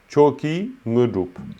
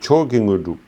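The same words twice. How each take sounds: First: The two words are said separately, not linked. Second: The two words are linked smoothly together. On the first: The speaker calls it wrong. "tu dis pas" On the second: The speaker calls it right. "Tu relis"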